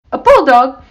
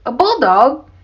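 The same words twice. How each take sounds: First: High, loud outraged exclamation; indignant blurt. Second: Higher, teasing question; amused disbelief. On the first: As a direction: blurt it out, deeply offended. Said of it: "Missus Johnson blurted out". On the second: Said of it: "Sam laughed". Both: A narrator's reading.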